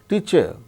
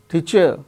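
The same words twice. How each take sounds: No difference in how they are said.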